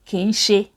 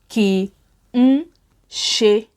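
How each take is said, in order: First: The phrase is run together as two words. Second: The phrase is said as three separate words. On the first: This is how it is said in casual native speech. "when native speakers say ki n ṣe, it sounds like ki n ṣe" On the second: This is the full form used in writing. "It has to be three words"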